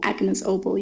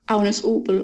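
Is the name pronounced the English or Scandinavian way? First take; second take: English; Scandinavian. First: The name is said with English pronunciation. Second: The name is said with Scandinavian pronunciation.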